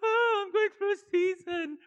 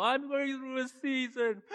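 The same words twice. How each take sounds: First: Much higher, louder, exaggerated fake sobbing; mocking a self-pitying believer, full fake cry; hammed-up wailing. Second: Higher, slower, mock-tearful whine; parodying a churchgoer with fake crying. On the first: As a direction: wail it like a melodrama. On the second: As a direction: ham up a crybaby lament. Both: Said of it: "people go".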